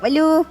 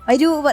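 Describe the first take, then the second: First: The middle consonant is an l sound. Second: The middle consonant is an r sound. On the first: It is how a small baby talks. The speaker calls it wrong. "കൊഞ്ചിപ്പെണ്ണ് വലൂ എന്നാ വിളിക്കുക" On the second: It is how a big child should talk. The speaker calls it right. "രാ പറ"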